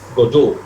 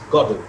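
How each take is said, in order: First: The stress is on the second syllable. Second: The stress is on the first syllable. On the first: This is a British or French pronunciation. "the second syllable would be accented" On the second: This is the Irish pronunciation. "the accent falls on the first syllable"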